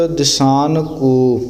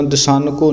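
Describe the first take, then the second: First: ਦਿਸਾਨ ਕੋ slow, with ਕੋ set apart; ਦਿਸਾਨ ਕੋ as two clearly divided words; words kept separate. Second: ਦਿਸਾਨ ਕੋ joined as one word; ਦਿਸਾਨ ਕੋ merged as a counterexample; words run together. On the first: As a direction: say ਦਿਸਾਨ, then a distinct ਕੋ. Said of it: "ਲਹਿਦਾ ਲਹਿਦਾ ਵੱਖਰਾ ਕਰਕੇ ਬੋਲਣਾ". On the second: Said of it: "ਦਿਸਾਨ ਕੋ ਨਹੀਂ ਬੋਲਣਾ". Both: Shown as a demonstration.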